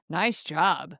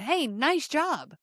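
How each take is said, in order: First: Low-pitched eye-roll praise; mock praise, dropped low and unimpressed; sarcastic. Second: Higher, slow, sincere praise; genuine encouragement. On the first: Friend after you spill a drink, sarcastic. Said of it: "you get this sarcastic eye roll". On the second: Parent after kid finishes a school project, encouraging. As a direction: cheer them on, stretching the words. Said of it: "it can be genuine encouragement". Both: Shown as a demonstration.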